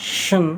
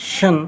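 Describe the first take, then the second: No difference in how they are said.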